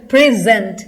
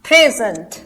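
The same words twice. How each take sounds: First: "present" leaning firmly on gent; stress on second syllable. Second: "present" with a strong pray, falling after; stress on first syllable. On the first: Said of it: "second syllable पे हमने stress दिया है". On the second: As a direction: hit pray at the start of "present". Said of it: "first syllable पे". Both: Shown as a demonstration.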